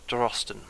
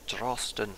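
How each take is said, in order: First: Said in the usual way. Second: Scottish accent. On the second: Shown as a demonstration. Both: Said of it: "You gotta say it with a Scottish accent".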